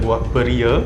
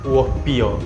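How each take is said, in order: First: It is said in standard Malay pronunciation. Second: It is said in the Kelantan dialect pronunciation. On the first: "dalam sebutan bahasa standard kita" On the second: "dalam logat Kelantan"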